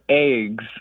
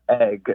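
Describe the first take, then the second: First: The vowel sounds like the one in 'ages'. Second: The vowel sounds like the one in 'beggar'. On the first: "almost like A G E S" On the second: "as in like beggar"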